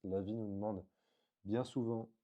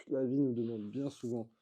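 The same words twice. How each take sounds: First: Said in the usual way. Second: Emphatic restatement. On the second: Real, not acted.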